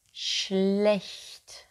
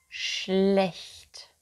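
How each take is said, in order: Both takes have the same delivery.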